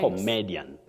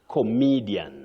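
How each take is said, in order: First: The word begins with the sound 'come'. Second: The word begins with the sound 'comi'. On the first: The speaker calls it wrong. "You don't say come" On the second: The speaker calls it right. "It's comi"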